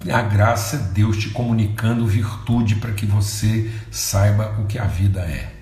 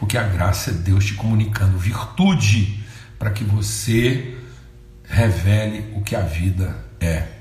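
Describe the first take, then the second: First: It is said at a normal pace. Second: It is said slowly and deliberately.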